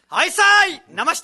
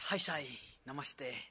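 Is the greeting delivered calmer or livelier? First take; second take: livelier; calmer. First: It is said with higher energy. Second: It is said with lower energy. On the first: The speaker calls it right. "もう少しこうテンション上げてからいきます" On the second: The speaker calls it wrong. "ちょっとラムちゃんらしくないから"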